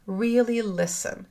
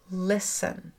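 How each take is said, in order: First: "really" lifted higher and drawn out slowly; stress on really. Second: Said in the usual way. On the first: Shown as a demonstration. Host urging listeners: "really" stressed high and slow.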